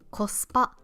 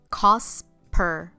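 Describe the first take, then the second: First: It is said with Japanese pronunciation. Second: It is said with an American English accent.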